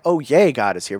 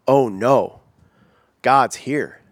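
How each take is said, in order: First: Lightly acted little cheer on YAY; mock glad welcome. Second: Drawn-out oh-no with pauses, dreading it; dismayed. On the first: Preacher showing the reaction people don't have, mildly cheery. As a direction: give "yay" a brief pretend lift of delight. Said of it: "Not like, oh yay". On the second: Acted. Preacher acting out dread when God shows up, dismayed. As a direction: let it sink in, broken by a heavy pause. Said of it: "Not like, oh yay ... We go".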